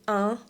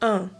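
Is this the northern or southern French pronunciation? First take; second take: northern; southern. First: It has the northern French pronunciation. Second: It has the southern French pronunciation. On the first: "pronounced un in the upper part of France" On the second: "in the southern part of France"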